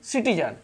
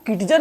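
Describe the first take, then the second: First: The word begins with an s sound. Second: The word begins with a k sound. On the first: The speaker calls it right. "इसको पढ़ेंगे सिटीजन" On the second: The speaker calls it wrong. "हमने इसको किटिजन नहीं पढ़ा है"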